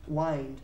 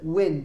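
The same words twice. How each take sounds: First: The vowel is a long i sound. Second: The vowel is a short i sound. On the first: The speaker calls it wrong. "we do not pronounce it wind" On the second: The speaker calls it right. "It's a short I for viento"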